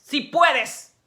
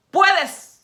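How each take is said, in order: First: Said in the usual way. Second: "Puedes" shot high and loud, held long; emphatic puedes. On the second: Shown as a demonstration. Preacher insisting to listeners, "Puedes" high and loud. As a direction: punch "Puedes" as a ringing insistence. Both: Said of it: "Es que todo lo puedes".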